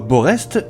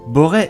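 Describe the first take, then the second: First: The name ends with an audible s sound. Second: The name ends without an s sound. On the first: The speaker calls it wrong. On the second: The speaker calls it right.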